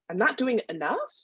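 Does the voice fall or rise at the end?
rise. It is said as a question, rising.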